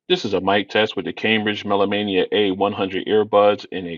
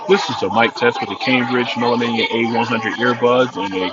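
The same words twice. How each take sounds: First: The voice is heard with quiet surroundings. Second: The voice is heard over crowd noise. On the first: "in a quiet location" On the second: "in a crowded location"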